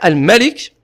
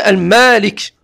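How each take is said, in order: First: The vowel after the m is short. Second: The vowel after the m is lengthened. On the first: "on peut dire Al-Malik" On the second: "faire ici un temps sur le mime"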